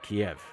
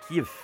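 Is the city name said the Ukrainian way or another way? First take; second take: another; Ukrainian. First: The name is said the non-Ukrainian way. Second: The name is said the Ukrainian way. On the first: The speaker calls it wrong. "not Kiev" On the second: The speaker calls it right. "That's why we say Kyiv"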